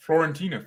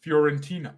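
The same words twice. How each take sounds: First: "Fiorentina" said with an L after the F, as Florentina; pronounced with L. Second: "Fiorentina" said with a y-glide after the F; pronounced without L. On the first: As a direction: say "Fiorentina" as flor-en-TEE-na. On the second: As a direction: say "Fiorentina" as fyor-en-TEE-na. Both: Shown as a demonstration. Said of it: "it's not an L?".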